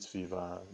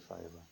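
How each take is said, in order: First: Said with a Nigerian English pronunciation. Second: Said with a standard English pronunciation. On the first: "due to my Nigerian pronunciation" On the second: "the English pronunciation is actually Fiverr"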